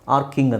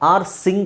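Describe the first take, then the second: First: The middle consonant is a k sound. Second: The middle consonant is an s sound. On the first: The speaker calls it right. "ಆರ್ ಕಿಂಗ್ ಆರ್ ಕಿಂಗ್ ಅಂತ ಹೇಳ್ತೀವಿ" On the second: The speaker calls it wrong. "ಆರ್ ಸಿಂಗ್ ಆಗಬೇಕು ತಾನೆ ಇದ್ರ ಪ್ರಕಾರ"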